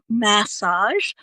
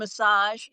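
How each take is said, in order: First: It is said in a British accent. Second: It is said in an American accent. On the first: "I love how you say it" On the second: "the American going massage"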